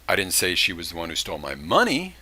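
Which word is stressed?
money. The word "money" carries the main stress. She stole something, but not money. "she would, did steal something, but she didn't steal money"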